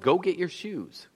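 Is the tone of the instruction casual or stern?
casual. It is said in a plain, casual tone. It is an ordinary request that can be ignored.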